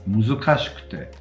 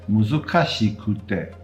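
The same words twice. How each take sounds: First: Some vowels are devoiced. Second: All the vowels are fully voiced. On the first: The speaker calls it right. "It's muzukashikute" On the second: The speaker calls it wrong. "it's not muzukashikute"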